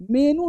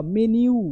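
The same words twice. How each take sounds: First: मेनू said as plain menu with no y; wrong pronunciation. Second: मेन्यू said as men-yu with a clear y glide; correct pronunciation. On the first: Teacher mocking the common wrong मेनू. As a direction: say मेनू flat, without the yu. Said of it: "मेनू नहीं भाई साहब". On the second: Teacher modelling the right मेन्यू for students. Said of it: "मेन यू दिखाओ". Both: Shown as a demonstration.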